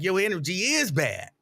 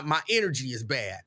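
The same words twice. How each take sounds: First: "is" punched in an agreeing comeback; retold stress on IS. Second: Said in the usual way. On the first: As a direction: throw it back at her, leaning on "is". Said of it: "And I'd be like". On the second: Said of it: "And she be like".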